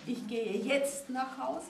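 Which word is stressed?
jetzt. The stress is on "jetzt".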